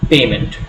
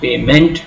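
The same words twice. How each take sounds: First: The stress is on the first syllable. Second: The stress is on the second syllable. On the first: The speaker calls it right. "but payment ... pay is a root word and it gets a stress" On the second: The speaker calls it wrong. "It's not payment"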